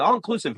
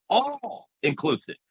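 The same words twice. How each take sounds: First: Said in the usual way. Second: Long drawn-out "all" before "inclusive"; stress on all. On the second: Real, not acted. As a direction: lean hard and long on "all". Contrasts term with its full meaning.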